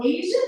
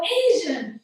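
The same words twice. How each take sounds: First: "Asian" high, rising into a question; doubting question. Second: "Asian" stated higher with a falling end; firm answer. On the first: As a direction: say "Asian" as if unsure it's true. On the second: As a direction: say "Asian" as a settled fact. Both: Retold or imitated. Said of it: "I start doubting that I'm Asian".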